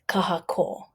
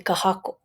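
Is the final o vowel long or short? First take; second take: long; short. First: The final o vowel is lengthened. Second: The final o vowel is short. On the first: The speaker calls it right. "But it has a kahako, so it's kahako" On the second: The speaker calls it wrong. "if it didn't have a kahako above the o in kahako, it would be kahako"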